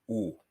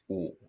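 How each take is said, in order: First: The vowel stays rounded and steady throughout. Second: The vowel stays rounded and steady throughout.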